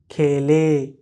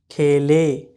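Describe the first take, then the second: Both takes have the same delivery.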